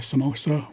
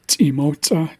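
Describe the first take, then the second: First: It begins with a plain s sound. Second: It begins with a ts sound. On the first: The speaker calls it wrong. "which is again an English pro- approximation" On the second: The speaker calls it right. "tsimotsa is the actual word"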